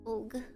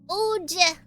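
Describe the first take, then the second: First: The word ends with a hard g sound. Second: The word ends with a soft j sound. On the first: "Whenever I say Og, this is actually what I'm talking about" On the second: "you're supposed to pronounce it Oj"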